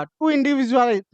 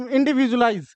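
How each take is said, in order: First: Each syllable drawn out very slowly, x0.4; teacher dictating the word slowly to students; slow careful. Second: Said in the usual way. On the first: Shown as a demonstration. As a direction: spell it out slowly for the class.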